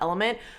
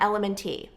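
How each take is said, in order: First: The name is said as 'element' with no ending. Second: The name is said with an added 'tee' ending. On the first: "so it's pronounced Element" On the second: "she kept saying um"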